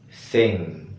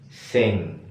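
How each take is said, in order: The two takes are said the same way.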